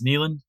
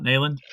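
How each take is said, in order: First: The first syllable sounds like 'nee'. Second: The first syllable sounds like 'nay'. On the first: The speaker calls it right. "It is Neelan" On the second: The speaker calls it wrong. "not Nayland"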